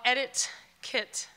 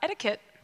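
First: It is said slowly, as two separate words. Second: It is said fast, blended into one word.

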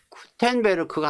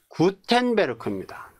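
First: It starts with a strongly aspirated k sound. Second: It starts with a plain, unaspirated g sound. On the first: The speaker calls it wrong. "키역이 아니라" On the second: The speaker calls it right. "기역이에요"

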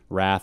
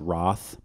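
First: It is said in the speaker's ordinary pronunciation. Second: It is said in a regional British pronunciation.

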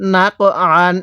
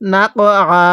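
First: The word ends with a final n sound. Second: The word ends on a long a sound. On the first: The reading continues without stopping here. "কিভাবে পড়ব?" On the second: The reader stops at this word. "এখন যদি আমরা এখানে ওয়াকফ করি"

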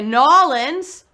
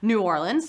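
First: The name is squeezed into a short Nawlins form. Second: The name is said in a fuller form. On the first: "Some people say Nawlins, right? That's the right way to say it" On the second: "Some people say New Orleans, like I do"

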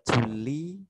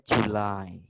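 First: The second syllable sounds like 'lee'. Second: The second syllable sounds like 'lie'. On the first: The speaker calls it wrong. "tadi Miss Siska baca Juli" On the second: The speaker calls it right. "harusnya bacanya July"

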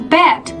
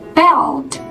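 First: The word is said without the L sound. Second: The word is said with a clear L sound. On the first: The speaker calls it wrong. "如果是bet，那就不对了啊" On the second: The speaker calls it right. "中间这个L 的音一定要发出来"

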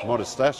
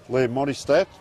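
First: The name ends with a 'sh' sound. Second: The name ends with a 'k' sound. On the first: "We call him Modistash. Modistash, I'll say that then" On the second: "Stack, is it?"

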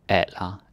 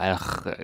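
First: The final R is not pronounced. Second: The final R is clearly pronounced. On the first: The speaker calls it right. "the D is silent. And the R, you don't pronounce it" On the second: The speaker calls it wrong. "Don't say like alra"

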